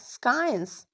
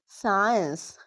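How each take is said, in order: First: A C sound is pronounced. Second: The C is silent. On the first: The speaker calls it wrong. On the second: The speaker calls it right.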